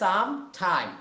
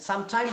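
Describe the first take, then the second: First: There is a small gap between the words. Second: The two words run together without a gap. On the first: The speaker calls it right. "একটু একটু মাঝখানে এই যে ফাঁকা আছে" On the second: The speaker calls it wrong. "সাম time বলা যাবে না"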